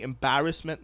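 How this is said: The word has a strong New York accent. "once you hear the embarrassment"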